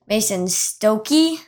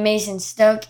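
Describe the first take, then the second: First: The surname ends on an added vowel sound. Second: The surname ends on a consonant sound. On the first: The speaker calls it right. "It's Mason Stokey, apparently" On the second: The speaker calls it wrong. "I pronounced the Maulers tight end's name Mason Stoke"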